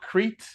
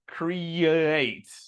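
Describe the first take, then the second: First: The vowels merge with no y sound between. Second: A small y sound links the two vowels. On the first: The speaker calls it wrong. "So not Crete" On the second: The speaker calls it right. "There's like a little that little Y sound"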